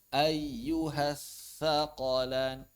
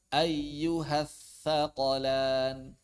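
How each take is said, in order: No difference in how they are said.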